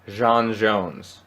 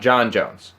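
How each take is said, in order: First: The first name sounds like Jean. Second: The first name sounds like John. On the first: The speaker calls it right. "It's Jean Jones" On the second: The speaker calls it wrong. "it's not John Jones"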